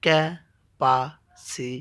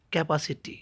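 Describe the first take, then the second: First: "ক্যাপাসিটি" slowly split as ক্যা, পা, সি, টি; four separate beats in "ক্যাপাসিটি", pauses between; syllable by syllable. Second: Said in the usual way. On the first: Shown as a demonstration. Teacher showing a polysyllable, saying "ক্যাপাসিটি" in four slow parts. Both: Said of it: "অধিক বার উচ্চারণ করতে হয়".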